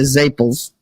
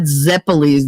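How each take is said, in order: First: It is said with Italian-American dialect pronunciation. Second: It is said with standard English pronunciation. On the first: The speaker calls it right. "they're zaples" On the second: The speaker calls it wrong. "They're not zeppelis"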